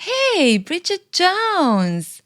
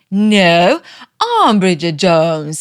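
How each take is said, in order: First: High, drawn-out sneering call; mocking rival. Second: Loud, slow insistence on I'm; indignant reply. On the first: Rival Becky greeting Bridget at the door, high and drawn-out mock. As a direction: stretch her name out high and slow, like a snooty rival. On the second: Retold or imitated. Bridget correcting Becky at Mark's door, loud and slow. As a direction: plant your feet and claim your own name loudly.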